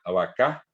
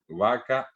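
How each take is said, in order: First: "vacá" stressed on the last vowel; Guaraní final stress. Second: "vaca" stressed on the first syllable, va; Spanish word stress. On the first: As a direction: put the weight on CÁ in "vacá". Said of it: "el acento está en la última vocal". («vacá» con la fuerza en la última vocal) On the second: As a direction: read "vaca" with the weight on VA. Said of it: "tiene el acento en el medio". («vaca» acentuada en la primera sílaba) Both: Shown as a demonstration.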